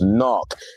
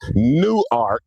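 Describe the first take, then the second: First: The name is said with a local pronunciation. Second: The name is said with a standard pronunciation. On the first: This is how people from the city say it. The speaker calls it right. "It's, it's Knock" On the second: This is how outsiders say it. The speaker calls it wrong. "It's not Newark"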